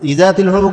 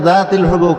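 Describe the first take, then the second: First: An extra 'i' vowel comes before 'zatil'. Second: The phrase starts directly with 'zatil'. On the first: The speaker calls it wrong. "এই ইজা কবে না" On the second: The speaker calls it right.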